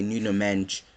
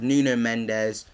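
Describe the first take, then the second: First: "Nuno Mensch" with the last name squeezed into one syllable; native-style pronunciation. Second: Said in the usual way. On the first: Shown as a demonstration. Giving the name as they say it, "Nuno Mensch" ending in sh. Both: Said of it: "or as they say".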